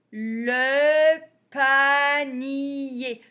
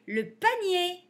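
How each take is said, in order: First: "Le panier" very slow and louder, every vowel held; syllable by syllable. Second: Said in the usual way. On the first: Shown as a demonstration. Teacher reading words for beginners, "Le panier" sounded out. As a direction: stretch "Le panier" into separate long syllables.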